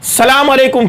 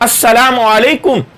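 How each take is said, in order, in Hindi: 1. शुरू की 'as' आवाज़ छोड़ दी जाती है। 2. शुरू की 'as' आवाज़ साफ़ बोली जाती है। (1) "एक और गलती" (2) "जबकि सही अल्फाज हैं"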